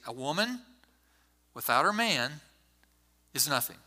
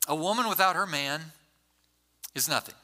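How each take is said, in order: First: It is said with pauses where the commas are. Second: It is said straight through without inner pauses.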